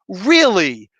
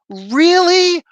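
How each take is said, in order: First: Said in the usual way. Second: High, loud disbelieving really; incredulous. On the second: Real, not acted. Reviewer shrieks in disbelief at the writing choice. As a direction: burst out in disbelief.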